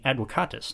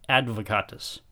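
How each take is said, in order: First: The v is pronounced like an English w. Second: The v is pronounced like an English v. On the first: "I'm using the classical pronunciation. The ancient Romans pronounced V like W" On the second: "not advocatus"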